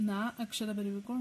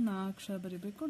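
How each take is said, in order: Both takes have the same delivery.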